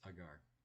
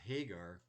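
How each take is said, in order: First: The name begins directly with a vowel. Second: The name begins with an H sound. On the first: "The H doesn't get pronounced" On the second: "instead of Hagar"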